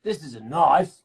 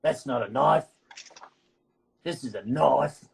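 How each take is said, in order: First: Repeating the Crocodile Dundee line with more punch, bad Australian accent. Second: Put-on quoting the movie in a sketchy Australian accent; bad Australian accent. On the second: Quizzing friends on a movie line, bad Australian accent. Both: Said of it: "I'm even doing an accent really badly".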